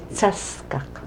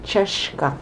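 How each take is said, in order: First: The word begins with a 'ts' sound. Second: The word begins with a 'ch' sound. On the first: This is another community's dialect. "they'd say Tsaskak" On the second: This is the speaker's own local dialect. "we say Cheshkak"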